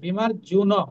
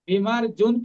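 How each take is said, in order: First: The final syllable na carries its full vowel. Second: The word ends on a bare consonant n. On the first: The speaker calls it right. "নটা পূর্ণ" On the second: The speaker calls it wrong. "কিন্তু নয়"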